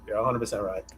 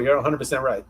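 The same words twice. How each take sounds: First: Repeated much softer, almost to himself. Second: Said in the usual way. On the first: Real, not acted. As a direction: echo the agreement under your breath, softer. S2 repeats agreement softly.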